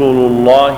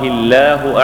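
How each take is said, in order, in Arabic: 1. اللام ثقيلة وغليظة. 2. اللام خفيفة ورقيقة. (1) "فإن الأولى فخمت لتقدم الضمة عليها" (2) "ثانية رققت لتقدم الكسرة عليها"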